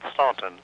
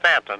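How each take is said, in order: First: The first vowel sounds like 'aw' in 'lawn'. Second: The first vowel sounds like 'a' in 'man'. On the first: This is how the spelling suggests it is said. The speaker calls it wrong. "not Staunton" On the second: This is how the name is said locally. The speaker calls it right. "the English uh, pronounce it Stanton"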